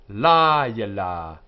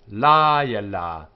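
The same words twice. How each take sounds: Both takes have the same delivery.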